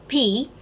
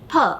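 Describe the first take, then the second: First: It is said as the full letter name. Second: It is said as a short bare consonant. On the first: "the first letter, that is P" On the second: "which should be pronounced as P"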